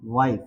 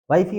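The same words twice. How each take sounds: First: वाइफ as one syllable, low and falling; silent final E. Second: वाइफ ही run together as "wife-ee"; wrong sounded E. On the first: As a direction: say वाइफ ending on F, no "ee". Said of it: "silent है". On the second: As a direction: add an "ee" to the end of वाइफ. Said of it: "अगर ई पढ़ते". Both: Shown as a demonstration.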